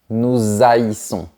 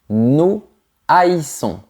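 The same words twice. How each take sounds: First: A z-sound links the two words. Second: No z-sound links the two words. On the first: The speaker calls it wrong. "et pas nous haïssons" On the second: The speaker calls it right. "on ne fait pas la liaison non plus. On dit nous haïssons"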